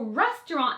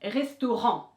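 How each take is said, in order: First: French accent, stress on the last syllable. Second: English accent, stress not on the last syllable. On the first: "the French pronunciation is that you just want to accentuate that last syllable" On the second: "in English would simply be restaurant"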